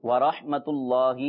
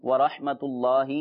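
No difference in how they are said.

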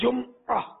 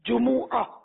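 First: The second consonant has no vowel after it. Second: The second consonant carries a u vowel. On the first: "لیکن اردو میں میم ساکن ہو جاتا ہے" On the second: "اصل لفظ عربی میں جمعہ میم پر پیش ہے"

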